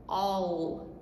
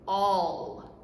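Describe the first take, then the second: First: The double L is said as an l sound. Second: The same.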